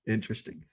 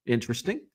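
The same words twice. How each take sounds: First: Softer Interesting with a laugh, fast. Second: Said in the usual way. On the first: Real, not acted. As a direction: say Interesting through a chuckle.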